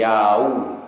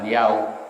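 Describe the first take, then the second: First: The glide is drawn out softly. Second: The glide is cut off abruptly. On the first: The speaker calls it right. "tapi yau" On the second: The speaker calls it wrong. "Jangan dipotong langsung yau"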